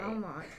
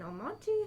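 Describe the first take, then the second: First: The name is given the local pronunciation. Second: The name is given its standard pronunciation. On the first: "no one in, in Almont says it right" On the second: "You said it right"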